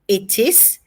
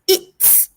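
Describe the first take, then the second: First: Both words are said fully and separately. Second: The two words merge into one short syllable. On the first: "full form" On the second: "short form"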